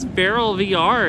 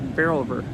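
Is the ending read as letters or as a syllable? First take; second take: letters; syllable. First: The ending is spelled out as two letters. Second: The ending is read as one syllable, ver. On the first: "It just says Barrel V R if it's all lowercase" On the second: "Like it's saying barrel and then ver for the V R"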